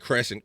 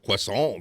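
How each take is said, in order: First: It is said like the English word 'crescent'. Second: It is said with a French-like 'kwa-sahn' sound. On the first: "I think we say crescent" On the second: "That's how you say it"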